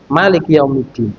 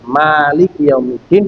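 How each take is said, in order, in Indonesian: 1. Vokal pertama pada Malik dibaca pendek. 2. Vokal pertama pada Malik dibaca panjang. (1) "boleh dibaca pendek" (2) "boleh dibaca panjang"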